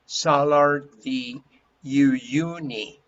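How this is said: The name is said with an English accent. "if you pronounce it in English, people would say"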